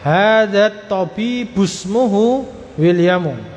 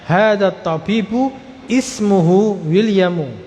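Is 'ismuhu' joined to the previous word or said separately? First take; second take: joined; separate. First: The word ismuhu runs straight into the previous word. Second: The word ismuhu starts with its own i vowel. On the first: "Kalau disambung hamzah wasal ... Langsung" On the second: "kalau dipisah"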